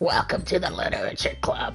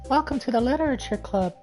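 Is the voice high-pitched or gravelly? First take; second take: gravelly; high-pitched. First: It is said in a rough smoker's voice. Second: It is said in a very high voice.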